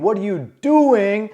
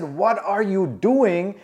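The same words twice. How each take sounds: First: Mock scream. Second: Slow questioning. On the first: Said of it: "I thought you screamed". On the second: Retold or imitated. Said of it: "No. I said".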